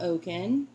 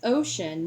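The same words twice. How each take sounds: First: The word is pronounced in an odd way. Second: The word is pronounced in the normal way. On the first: The speaker calls it wrong. "not ocean" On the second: The speaker calls it right. "That word is ocean"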